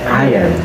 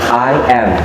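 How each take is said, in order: First: The two words run together into one word. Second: The two words are said separately, one by one. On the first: "Yang kedua itu digabung" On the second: "Dipisah. ... Jadi diucapinya satu kata satu kata"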